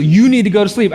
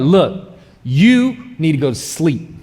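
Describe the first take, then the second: First: Louder, firm wife's order; louder stern wife. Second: Slow, firm wife telling him off; mock stern wife. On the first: Retold or imitated. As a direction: say it louder like a wife ending the argument. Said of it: "She just". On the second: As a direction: lay it down slowly like a no-nonsense wife. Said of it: "she'll be like".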